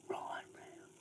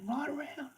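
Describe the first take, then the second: First: Said in the usual way. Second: High, loud call to the dog; much higher, louder call; shouted dog command. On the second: Real, not acted. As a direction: yell it out across the paddock to turn the dog. Correcting the dog, calling louder.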